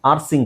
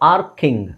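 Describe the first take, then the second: First: The middle consonant is an s sound. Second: The middle consonant is a k sound. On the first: The speaker calls it wrong. "ಅಲ್ಲ" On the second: The speaker calls it right. "ಇಲ್ಲಿ sound ಕೆ ಬರುತ್ತೆ"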